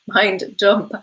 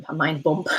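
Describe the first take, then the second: First: "dump" said clearly with a d, a little louder; amused correction, "dump" landed with a clear d. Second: Reading "bump" puzzled, with a b, before the fix; puzzled misread of "A mind bump."; saying "bump" as written with a b, amused. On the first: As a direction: fix it to "Mind dump." with a firm d. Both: Real, not acted.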